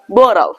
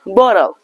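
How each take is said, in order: The two takes are said the same way.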